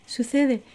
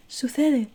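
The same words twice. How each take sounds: The two takes are said the same way.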